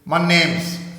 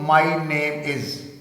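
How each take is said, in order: First: 'Is' shrinks and joins 'name' as 'name's'. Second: 'Is' is said as a separate full word.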